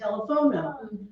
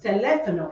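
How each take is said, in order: First: The stress is on the third syllable. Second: The stress is on the second syllable. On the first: The speaker calls it wrong. "it ends in a vowel, so it should fall right here... but it's incorrect" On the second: The speaker calls it right. "because there is a written accent. So it's teléfono"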